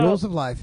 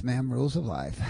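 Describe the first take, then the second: First: RULES punched loud and high; emphatic punchline. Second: Said in the usual way. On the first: Real, not acted. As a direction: land "Rules of life" hard, like a verdict. Host's punchline about life's rules.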